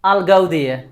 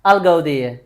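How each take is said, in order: No difference in how they are said.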